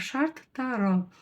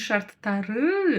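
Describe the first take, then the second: First: The 'ы' vowel is short and reduced. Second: The 'ы' vowel is full and drawn out. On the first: The speaker calls it right. "коротко" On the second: The speaker calls it wrong. "Не"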